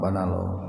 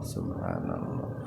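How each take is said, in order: First: The opening syllable is dropped from the word. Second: Every syllable of the word is said fully. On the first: The speaker calls it wrong. "naon eta teh atuh" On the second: The speaker calls it right. "harus betul"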